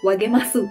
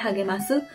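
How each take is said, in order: First: The word begins with a w sound. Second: The word begins with an h sound. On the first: The speaker calls it wrong. "bukan wagemasu" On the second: The speaker calls it right. "bacanya hagemasu. Ha"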